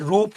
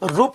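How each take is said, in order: First: The vowel u is said long. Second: The vowel u is said short. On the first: The speaker calls it right. "रूप होता है" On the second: The speaker calls it wrong. "रूप नहीं होता है"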